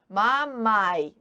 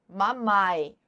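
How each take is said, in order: No difference in how they are said.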